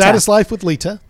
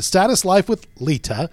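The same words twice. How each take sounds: First: The name is said quickly and lightly. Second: The name is said slowly and carefully. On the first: The speaker calls it right. "You got to say it faster" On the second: The speaker calls it wrong. "trying too hard"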